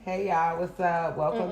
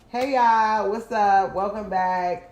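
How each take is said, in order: First: It is said with little energy. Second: It is said with more energy.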